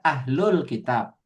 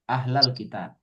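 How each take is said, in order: First: The vowel after 'ahl' is u. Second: The vowel after 'ahl' is a. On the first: No one is being called directly. "dibaca ahlul kitab, pakai domah" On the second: Someone is being called directly. "ketika didahului oleh ya"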